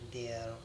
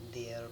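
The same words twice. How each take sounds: First: It is said as one contracted syllable. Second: The same.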